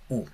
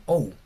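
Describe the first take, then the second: First: U as one plain Spanish vowel, a bit softer; u, a single vowel like in Spanish sumo; right reading u. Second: Ou sounded as two vowels, o then u; wrong reading ou. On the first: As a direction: say a single clean u. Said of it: "Se lee u". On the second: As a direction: glide from o to u. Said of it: "No se lee". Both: Shown as a demonstration.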